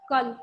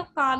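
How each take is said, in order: First: कल with a short clipped अ; कल said short as a hrasva example; short vowel kal. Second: काल with a held long आ; काल said long to contrast with कल; long vowel kaal. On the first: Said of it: "हमारा ह्रस्व स्वर है". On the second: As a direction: stretch the आ in काल. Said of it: "इसको दीर्घ बनाएंगे तो काल". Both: Shown as a demonstration.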